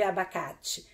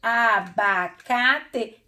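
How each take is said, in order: First: Said in the usual way. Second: "Abacate" slowly as a, ba, ca, te; syllable by syllable. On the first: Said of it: "você já sabe escrever abacate". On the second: Shown as a demonstration. Teacher spelling out a word for pupils, syllable by syllable. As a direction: give each syllable of "Abacate" its own beat. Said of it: "tem todas as sílabas".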